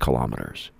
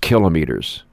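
First: The stress is on the second syllable. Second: The stress is on the first syllable. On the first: The speaker calls it wrong. "It's not kilometers" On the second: The speaker calls it right. "it's kilometers"

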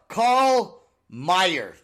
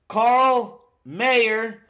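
First: The surname sounds like my-er. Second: The surname sounds like the word mayor. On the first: The speaker calls it right. "Not Carl the Mayor" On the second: The speaker calls it wrong. "I said Mayer again"

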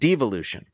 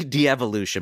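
First: The word begins with one short syllable. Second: The word begins with two separate vowel sounds. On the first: "but devolution" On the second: "I always want to say de-evolution"

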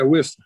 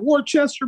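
First: The name is said short, as two syllables. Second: The name is said in full, with every letter. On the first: This is how locals say it. The speaker calls it right. "just take all the unnecessary letters out of there" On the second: This is how an outsider says it. The speaker calls it wrong. "And I remember them juggalos, boo"

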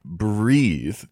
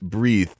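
First: The word is smooth and legato, softly articulated. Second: The word is sharp and percussive, with a breathy th.

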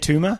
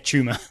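First: The word begins with a plain t sound. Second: The word begins with a ch sound. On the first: This is how it is said in the current country. "Over here" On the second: This is how it is said back home. "Back there, ... CH? ... that's how you pronounce it"

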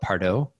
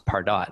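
First: The name is said the French way. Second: The name is said the English way. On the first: The speaker calls it wrong. "I used to call it Pardo. ... it's a French word, or at least it looks French" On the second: The speaker calls it right. "People were like, no, it's Pardot"

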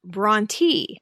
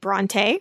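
First: The name ends with an ee sound. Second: The name ends without an ee sound. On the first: This is how the family said the name. "which seems to be the way the family pronounced it" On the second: This is the speaker's habitual pronunciation. "which admittedly is the way I always pronounced it"

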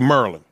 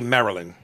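First: It is said with a local Maryland accent. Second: It is said without a local Maryland accent. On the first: This is how people from Maryland say it. "They say Maryland" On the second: This is how outsiders say it. "people from Maryland don't say Maryland"

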